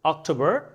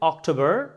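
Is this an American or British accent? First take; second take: American; American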